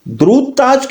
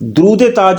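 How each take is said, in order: First: No 'e' sound links the two words. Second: An 'e' sound links the two words. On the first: It is a durood for the one who wears the crown. The speaker calls it right. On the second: It means the durood of the crown. The speaker calls it wrong.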